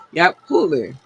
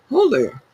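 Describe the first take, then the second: First: "Hulu" said as "OO-luh", the same Baltimore vowel again, falling; defiant repeat of her accented "Hulu". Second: "Hulu" said as "HOE-luh", rounded Baltimore vowel, falling at the end; drawn-out "Hulu" with an "oh" sound and a dropped final vowel. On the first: Host owning her Baltimore "Hulu" for listeners, said proudly. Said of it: "however I said it is how I said it". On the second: Podcast host showing listeners her Baltimore "Hulu", clearly pronounced. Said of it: "I said it". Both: Shown as a demonstration.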